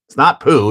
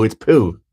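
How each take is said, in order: First: "poo" rejected, higher than the fix; mock-correcting, knock down the English "poo"; wrong "poo". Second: "poo" as the approved version, dropping in pitch; corrected "poo". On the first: Streamer jokes about the French vowel, wrong "poo". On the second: Streamer jokes about the French vowel, corrected "poo". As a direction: settle on "poo" as the right French-style vowel. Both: Shown as a demonstration. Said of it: "Get it right".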